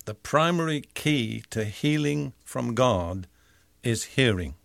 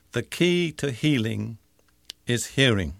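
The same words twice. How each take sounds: First: Said in the usual way. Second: The key to healing is hearing, said slowly with weight on key; slow, simple restatement. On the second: Shown as a demonstration. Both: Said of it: "Let me say that simply".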